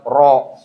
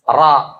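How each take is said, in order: First: The vowel is a rounded 'o'. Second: The vowel is a clear, open 'a'. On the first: The speaker calls it wrong. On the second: The speaker calls it right.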